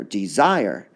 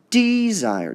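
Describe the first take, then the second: First: "desire" as de-ZIRE, second part lifted; stress on second syllable. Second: "desire" wrongly stressed as DEE-zire, high long start; stress on first syllable. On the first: Teacher gives the right option, stress on ZIRE in "desire". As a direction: start low and rise onto ZIRE in "desire". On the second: Teacher tests a wrong option, stress on DEE in "desire". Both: Shown as a demonstration. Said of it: "we hear the zire part going up".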